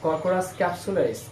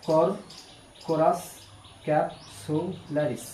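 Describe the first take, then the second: First: It is said smoothly without breaks. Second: It is broken into parts with pauses. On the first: "আমরা এভাবে পড়বো" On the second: "এটাও একটু ভাগ করে পড়লে বেটার হবে"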